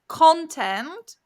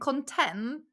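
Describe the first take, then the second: First: The stress is on the first syllable. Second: The stress is on the second syllable. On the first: It names material made for social media. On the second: It describes feeling satisfied.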